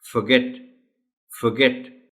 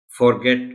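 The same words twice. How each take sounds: First: फॉरगेट with a reduced schwa first vowel; teacher models फॉरगेट correctly; correct pronunciation. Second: फॉरगेट with a full o sound; spelled-out reading. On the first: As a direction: say फॉरगेट as fuh-get. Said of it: "मगर इसको पढ़ना है". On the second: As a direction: read फॉरगेट as written, for-get. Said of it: "लिखा हुआ तो है". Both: Shown as a demonstration.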